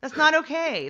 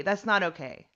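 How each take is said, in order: First: Not said high and firm; stress on not. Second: Said in the usual way. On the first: Real, not acted. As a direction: hit the word not. Emphatic first take.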